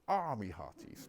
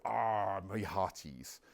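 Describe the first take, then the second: First: Put-on slow, lightly done West Country pirate accent. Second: Put-on a light West Country pirate accent. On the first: Speaker recalls the movie pirate, slow, light West Country accent. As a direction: draw out a mild West Country pirate line. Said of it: "the fact that we think pirates say". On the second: Lecturer lightly mimics the movie pirate's West Country accent. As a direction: toss off a mild stage-pirate West Country line. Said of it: "this is why we now think pirates go".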